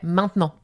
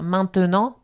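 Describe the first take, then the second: First: The middle E sound is dropped. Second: The middle E sound is pronounced. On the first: This is how most French speakers say it. "nous, on dirait maintenant" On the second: This is how it is said in Marseille. "à Marseille, peut-être qu'on va dire maintenant"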